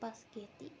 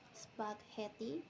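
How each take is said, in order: First: The word begins with pas, s moved later. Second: The word begins with the sp cluster. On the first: "In the variant spaghetti, the position of the s sound is shifted" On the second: "In the standard pronunciation spaghetti"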